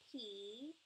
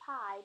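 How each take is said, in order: First: The vowel sounds like 'ee'. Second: The vowel sounds like 'eye'. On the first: The speaker calls it right. "but P" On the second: The speaker calls it wrong. "not pie"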